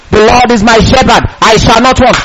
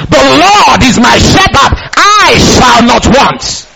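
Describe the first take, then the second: First: Said in the usual way. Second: Slow, drawn-out proclamation; bold response. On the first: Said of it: "David was talking". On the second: Shown as a demonstration. Believer responds to David's scripture, slowly and boldly proclaiming. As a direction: stretch every word into an emphatic declaration. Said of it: "What's your response?".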